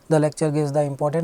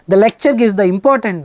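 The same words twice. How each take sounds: First: The voice is normal, with flat intonation. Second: The voice is raised and emphatic. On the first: The speaker calls it right. "normal voice, no intonation" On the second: The speaker calls it wrong. "she's not raising the voice"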